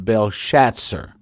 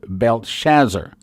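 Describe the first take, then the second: First: The name is said as in the original language. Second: The name is said as its English spelling reads. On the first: "the way you would pronounce it in the original tongue" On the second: "if you you'd pronounce it the way it's spelled"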